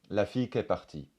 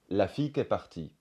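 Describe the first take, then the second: First: The vowel of 'qui' is dropped entirely. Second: The vowel of 'qui' is dropped entirely.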